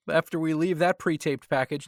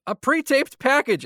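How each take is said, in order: First: Said in the usual way. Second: Higher, louder and slow, with heavy irony on "pre-taped"; sarcastic emphasis. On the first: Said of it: "now we're going to go to". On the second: Real, not acted. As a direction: drag out "a pre-taped package" as if it were a letdown. Sarcastic repeat of the phrase.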